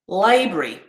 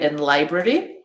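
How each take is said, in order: First: It is said quickly with a middle vowel dropped. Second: It is said slowly with every vowel kept. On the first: "when I say these quickly, it'll sound like this" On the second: "that's how I would pronounce these words slowly"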